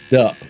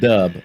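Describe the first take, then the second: First: The syllable ends with a p sound. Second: The syllable ends with a b sound. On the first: This is how local people say it. "they say Dup" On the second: This is not how local people say it. "not Dub"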